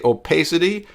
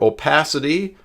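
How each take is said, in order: First: The stressed syllable sounds like 'pay'. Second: The stressed syllable sounds like 'pah'. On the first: "Put pay P A Y if you say opacity" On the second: "or opacity. Put P A H"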